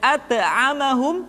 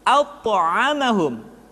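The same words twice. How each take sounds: First: The consonant is pronounced thin and light. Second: The consonant is pronounced thick and heavy. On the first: The speaker calls it wrong. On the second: The speaker calls it right.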